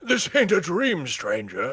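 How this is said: It is read in a put-on trader voice.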